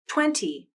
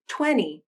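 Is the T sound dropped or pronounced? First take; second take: pronounced; dropped. First: The T is clearly pronounced after the N. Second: The T is dropped, leaving only the N. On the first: "and then without a nasal flap" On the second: "first I'll pronounce them with a nasal flap"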